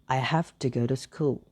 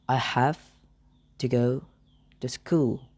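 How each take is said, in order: First: It is said at normal speed. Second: It is said slowly.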